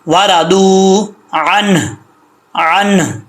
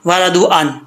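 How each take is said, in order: First: वरादू अन slow, long ऊ, अन ending in a breathed h; audible final हा. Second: वरादू अन quick, short vowels, final h dropped; wrong stop. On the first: Teacher models stopping with हा, slow recitation. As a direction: stretch वरादू, then release a puff of h after अन. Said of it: "हा का sound लाजमी आएगा". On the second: Teacher shows what not to do, h omitted. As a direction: cut अन off at the n, hurrying वरादू. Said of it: "ऐसा नहीं कि". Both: Shown as a demonstration.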